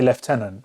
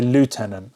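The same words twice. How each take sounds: First: It is said the British way, like lef-tenant. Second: It is said the American way, like loo-tenant. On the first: "If we say that, we say lieutenant" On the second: "Americans say lieutenant"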